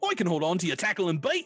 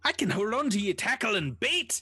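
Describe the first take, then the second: First: It is said in a Cockney accent. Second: It is said in a plain, unaccented voice. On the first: The speaker calls it right. "what's his little Cockney accent? ... Close enough" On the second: The speaker calls it wrong. "that's not his voice, is it?"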